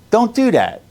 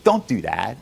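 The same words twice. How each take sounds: First: Higher, louder Don't do that, insisting; louder repeat. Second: Said in the usual way. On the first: Real, not acted. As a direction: raise the voice on the repeat.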